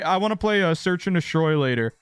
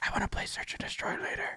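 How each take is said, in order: First: It is spoken in a normal voice. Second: It is whispered very quietly.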